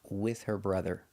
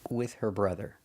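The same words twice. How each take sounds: Both takes have the same delivery.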